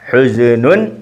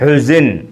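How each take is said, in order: First: The word ends with an added -un syllable. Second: The word stops on its final consonant. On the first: This is the full form of the word. "ഹുസിനുൻ ആണ്" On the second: The word stands at the end of a sentence. "വഖഫ് ആയതുകൊണ്ട് സുക്കൂൻ കൊടുത്ത് നിർത്തിയതാണ്"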